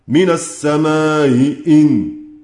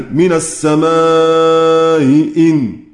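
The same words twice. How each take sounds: First: The long vowel is kept short. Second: The long vowel is held at medium length. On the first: "والقصر" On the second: "يجوز فيه التوسط"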